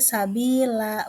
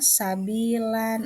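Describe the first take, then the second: First: The word ends on a long open vowel. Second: The word ends with an n sound. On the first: The speaker calls it right. "Jadi dibaca sabila" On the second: The speaker calls it wrong. "bukan sabilan"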